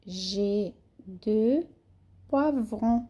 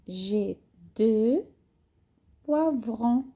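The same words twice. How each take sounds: The two takes are said the same way.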